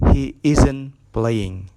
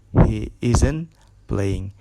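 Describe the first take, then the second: No difference in how they are said.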